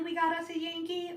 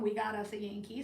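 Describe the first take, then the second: First: Higher, welcoming Cajun call; friendly version. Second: Imitated unwelcoming local, kept low-key; unwelcome version. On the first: Retold or imitated. Weighing whether locals welcome her, friendly take. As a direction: greet the newcomer with a friendly lift. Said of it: "this was a friendly". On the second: Weighing whether locals resent her, unwelcoming take. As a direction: say it as a cool, unfriendly remark. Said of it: "an unwelcome".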